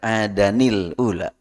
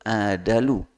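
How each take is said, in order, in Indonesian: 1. Bunyi n dan i menghubungkan kedua kata. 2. Bunyi n dihilangkan dan kedua kata menyambung. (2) "tanwinnya nakal, dibaca nakal"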